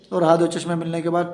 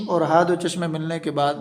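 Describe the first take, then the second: No difference in how they are said.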